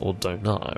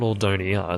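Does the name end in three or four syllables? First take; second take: three; four. First: The name has no extra syllable before the end. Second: The name has an extra syllable before the end. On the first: The speaker calls it right. "it's Ordona" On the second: The speaker calls it wrong. "It's not Ordonia"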